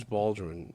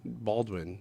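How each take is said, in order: First: "Baldwin" slurred, its middle consonants swallowed; slurred name. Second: "Baldwin" softly restated with a clear D and W; quietly fix "Baldwin", both syllables distinct; corrected name. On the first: Podcaster fumbling the author's name, "Baldwin" slurred. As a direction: stumble over "Baldwin", losing the W. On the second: Podcaster correcting a slip, "Baldwin" said softly and clearly. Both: Real, not acted.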